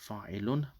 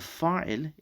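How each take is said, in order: First: The word ends with an added -un syllable. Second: The word ends without any added syllable. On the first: This is the full form with the case ending. "this is fa'ilun" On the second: This is the usual spoken form without the ending. "we don't normally pronounce that last bit"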